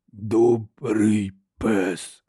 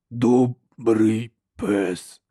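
First: Very slow, low, cracked lumbering giant; slow rasping monster voice; harsh cracked giant voice. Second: Slow rasping monster voice; harsh cracked giant voice. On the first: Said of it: "вимовив він різким, надтріснутим голосом". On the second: Giant repeats, same voice. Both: A narrator's reading. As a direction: drag out each word like a simple-minded brute.

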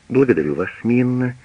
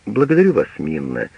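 First: Quick brush-off thanks; mother cutting the maid off hastily; hasty. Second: Clipped authority that ends the talk; strict. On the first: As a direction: hurry past the thanks, rising at the end. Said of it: "говорит поспешно фрау Пагель". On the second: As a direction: mistress coldly dismissing the old maid. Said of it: "говорит она поэтому со всей строгостью". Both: A narrator's reading.

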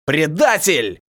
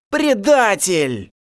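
First: Short, loud growl of "Предатель"; growled accusation. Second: Slow, drawn-out hiss of "Предатель"; hissing accusation. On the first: Elder captive growls at the turncoat, short and loud. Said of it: "зарычал старший сурвак". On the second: Captives hiss at the turncoat werewolf, slow and venomous. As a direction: spit "Предатель!" out slowly like a hiss. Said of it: "зашипели голоса". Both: Acted.

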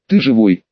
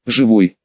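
First: Near tears. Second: Dazed and unsure; bewildered. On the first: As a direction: voice close to crying. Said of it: "чуть не заплакала она". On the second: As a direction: answer it lost and confused. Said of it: "растерянно кивнул Дэн". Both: Acted.

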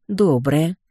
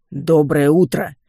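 First: «Доброе!» with a short amused chuckle; amused smirk. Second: Louder, slow booming «Доброе утро!»; booming greeting. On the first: Heroine answers the booming skeletons, amused smirk. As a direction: toss back «Доброе!» with a smirk. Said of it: "хмыкнула я". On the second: Two skeleton guards greet the heroine at the door, booming. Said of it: "громыхнули оба скелета". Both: Acted.

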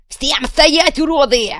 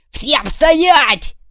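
First: High, loud bellow with an insult; commanding yell. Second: High, loud bellow; commanding yell. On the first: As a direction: roar them into stillness. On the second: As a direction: freeze the crowd with a roar. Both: Acted. Kuvalda on the jeep roof yelling at the crowd.

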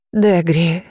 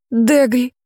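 First: Said in the usual way. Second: Higher, delighted name call; overjoyed to see her; mother greeting the returned girl, higher and joyful. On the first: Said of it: "сказала тётя". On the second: Acted. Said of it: "обрадовалась мама Нейзи".

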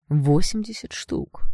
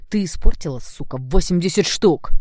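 First: Slow, seething stress on восемьдесят; cold seething. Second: Seething outburst. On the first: Blond seethes at the girl over the price, slow and cold. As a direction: grind out восемьдесят штук slowly through rage. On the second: Blond rages at the girl over the ruined sneakers, loud and seething. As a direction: let восемьдесят штук burst out in rage. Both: Acted. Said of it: "продолжал шипеть блондин".

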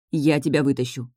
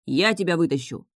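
First: Understated, earnest promise; solemn vow. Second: Mildly impulsive promise; sudden blurt. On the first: Heroine promising to rescue the witch, solemn vow. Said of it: "поклялась я". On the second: Captain promising to rescue the witch, sudden blurt. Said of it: "неожиданно выпалил Нейк". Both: A narrator's reading.

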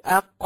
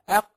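First: "أق" louder, qaf released with a bouncing echo; qalqala on qaf. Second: "أق" said flat, qaf closed with no echo; "أق" quick, the qaf swallowed without a bounce; wrong qalqala. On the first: Teacher to students showing the right qalqala: bouncing qaf. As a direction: pop the qaf in "أق" so it rebounds. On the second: Teacher to students showing what not to say: a flat qaf. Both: Shown as a demonstration. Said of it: "ما ينفعش تقول أق".

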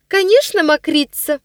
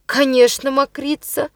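First: High, louder shrill agreement; girl's echo. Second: Confident tone. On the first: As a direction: chime in like a spiteful little girl. Ниночка echoes her brother. (высоко, звонко, поддакивая) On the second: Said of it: "произнёс он уверенным голосом". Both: A narrator's reading.

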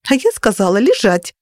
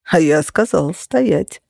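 First: Mildly indignant comeback; understated huffy order. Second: Slow, amused counter-order; unhurried, lightly mocking; smirking. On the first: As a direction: insist with a touch of outrage. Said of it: "возмутилась я". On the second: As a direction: answer slowly with a faint smirk. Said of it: "усмехнулся Феникс". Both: A narrator's reading.

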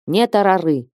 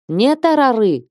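First: Wailing cry. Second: Wailing shout. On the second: Nun Ilaria wails at the sisters, тарары shrieked high. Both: A narrator's reading. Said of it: "В источный голос вопит мать Илария".

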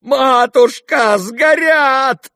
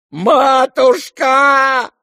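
First: High, loud, drawn-out wail on Матушка; wailing cry. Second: Long drawn-out high wail of Матушка; wailing cry. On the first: Lebedev wailing at the fire, high and loud. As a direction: wail over the burning money. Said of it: "вопил Лебедев". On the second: Lebedev wailing at the burning money, a long high howl. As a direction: howl Матушка like all is lost. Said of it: "всё ещё вопил Лебедев". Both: Acted.

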